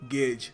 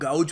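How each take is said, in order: First: The vowel sounds like 'ay' in 'day'. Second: The vowel sounds like 'ow' in 'cow'. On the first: The speaker calls it right. "सही तरीका इसको pronounce करने का है गेज" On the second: The speaker calls it wrong. "कुछ लोग गाउज pronounce करते हैं"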